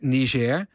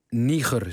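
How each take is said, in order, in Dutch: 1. De naam wordt met Franse klanken uitgesproken. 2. De naam wordt met Nederlandse klanken uitgesproken. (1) "op zijn Frans uitspreekt" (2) "de NOS het lelijke Niger zegt"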